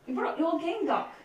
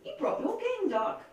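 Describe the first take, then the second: First: Light Scottish accent. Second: Said in the usual way. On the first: Shown as a demonstration. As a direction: say it with a Scottish lilt. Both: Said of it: "except they were my Scottish accent".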